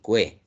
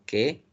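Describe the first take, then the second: First: A u sound is heard before e. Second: No u sound is heard before e. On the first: The speaker calls it wrong. "Yo no digo ... ni cue" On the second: The speaker calls it right. "solamente la E"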